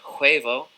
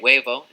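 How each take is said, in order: First: The h at the start is heard. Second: The h at the start is silent. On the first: The speaker calls it wrong. "instead of" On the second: The speaker calls it right. "in Spanish we don't pronounce the H. We say huevo"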